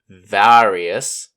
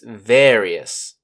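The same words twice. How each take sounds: First: The first vowel is not an E sound. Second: The first vowel is an E sound. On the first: The speaker calls it wrong. "It's not various, ... or remember to not pronounce it weirdly" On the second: The speaker calls it right. "watch out for the A, which makes an E sound"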